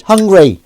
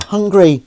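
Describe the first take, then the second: First: High, loud, insistent call; louder still. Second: High, insistent call from a mysterious voice; louder. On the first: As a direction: call out loudly from outside, pitched high. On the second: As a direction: call it out high, pressing harder. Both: Acted. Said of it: "and it's louder".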